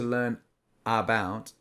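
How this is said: There is a break between learn and about. The speaker calls it wrong. "we don't say to learn about, we don't pause"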